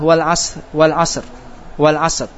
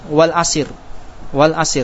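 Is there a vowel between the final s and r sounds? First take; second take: No; Yes. First: The final s and r are joined without a vowel. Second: An i vowel is heard between s and r.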